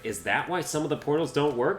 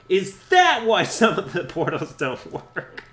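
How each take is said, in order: First: The question is asked in a mild tone. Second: The question is asked in an aggressive tone. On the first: "Spyro was like" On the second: "It's so it's so aggressive now that I think about it"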